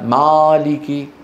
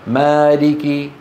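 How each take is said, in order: First: The vowel has an exaggerated wide mouth opening. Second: The vowel has a moderate mouth opening. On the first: The speaker calls it wrong. "وليس مالك" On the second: The speaker calls it right. "فتح العرب فتح وسط"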